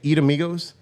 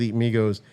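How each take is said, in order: First: The name is said with an added vowel before Migos. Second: The name is said without a vowel before Migos. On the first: The speaker calls it wrong. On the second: The speaker calls it right.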